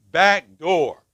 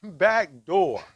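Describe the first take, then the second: First: Loud, clipped robotic alarm voice; alarm announcement. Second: Loud, mechanical alarm voice; alarm announcement. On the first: Man at a counseling group voicing the burglar alarm, mock robotic announcement. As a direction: imitate the house alarm's flat announcement. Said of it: "we get this announcement". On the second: Man retelling the night the alarm spoke, mock robotic announcement. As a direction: imitate the house alarm calling out the door. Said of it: "and we hear". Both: Retold or imitated.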